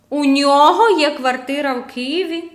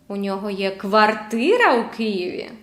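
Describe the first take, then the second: First: The pitch rises on the word нього. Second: The pitch rises on the word квартира. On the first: The question is whether this person or another owns it. "У нього чи в іншої людини?" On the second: The question is whether it is an apartment or a house. "Квартира чи будинок?"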